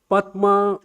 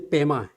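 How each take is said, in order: First: It is said with an Indian pronunciation. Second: It is said with a Tibetan pronunciation. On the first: "I just you know pronounce like a Indian you know actual pronunciation" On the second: "But in Tibetan, they say"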